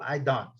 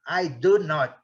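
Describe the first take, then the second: First: The negative is contracted into one syllable. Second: The negative is said as separate full words. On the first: It is an ordinary negative answer. "em noventa e nove por cento dos casos" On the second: The denial is emphatic. "quando ele quiser enfatizar"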